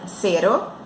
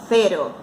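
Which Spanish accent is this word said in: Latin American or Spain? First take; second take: Latin American; Spain. First: It is said with a Latin American Spanish accent. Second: It is said with a Spain Spanish accent. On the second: "na Espanha seria cero"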